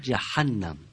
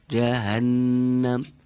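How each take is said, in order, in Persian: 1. صدای h یک صدای خشن و حلقی است. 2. صدای h یک صدای سبک و نفسی است.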